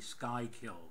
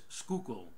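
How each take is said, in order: First: The first syllable sounds like 'sky'. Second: The first syllable sounds like 'skoo'. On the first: The speaker calls it wrong. "not the Skykill Express" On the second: The speaker calls it right. "That's that's how you pronounce it"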